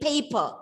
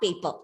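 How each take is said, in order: First: The first p is said with a puff of air. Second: The first p is said without a puff of air. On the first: The speaker calls it right. "it's a paper" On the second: The speaker calls it wrong. "not paper"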